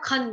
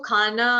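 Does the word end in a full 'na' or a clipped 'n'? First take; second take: clipped n; full na. First: It ends on a clipped n, no vowel. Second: It ends with a full vowel after n. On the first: The speaker calls it right. "इसको खन बोलेंगे" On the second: The speaker calls it wrong. "इसको खाना, ठीक, ऐसा नहीं बोलेंगे"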